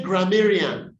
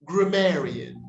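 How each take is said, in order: First: Grammarian with a full 'a' in gram; common mispronunciation. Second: Grammarian with a reduced first vowel; corrected pronunciation. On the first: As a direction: say grammarian as gra-MEH-ree-an. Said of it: "we say". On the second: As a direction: model grammarian as gruh-MAIR-ee-un. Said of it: "we say grammarian". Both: Shown as a demonstration.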